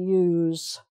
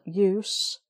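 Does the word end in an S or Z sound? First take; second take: Z; S. First: The word ends with a buzzing Z sound. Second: The word ends with a hissing S sound. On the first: It is a verb, an action. "so that's the Z there" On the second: It is a noun. "the other one is S"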